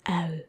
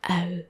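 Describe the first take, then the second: No difference in how they are said.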